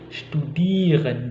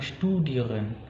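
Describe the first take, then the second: First: The stress is on the -ieren ending. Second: The stress is not on the -ieren ending. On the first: The speaker calls it right. "tapi studieren, di irennya itu di dua suku kata terakhir" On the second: The speaker calls it wrong. "bukan studieren"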